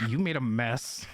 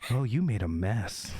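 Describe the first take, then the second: First: Lower, rising at the end on "mess"; contrasting take. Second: Much lower, suggestive delivery; suggestive voice demo. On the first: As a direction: lower voice with amused lift. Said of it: "Versus me going". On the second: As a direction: drop it low, suggestively. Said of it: "It's like me going like". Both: Shown as a demonstration.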